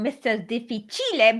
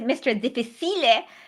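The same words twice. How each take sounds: First: The name is pronounced with Italian sounds. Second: The name is pronounced with Spanish sounds. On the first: The name is taken to be Italian. "or it could be Italian" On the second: The name is taken to be Spanish. "if it's Spanish"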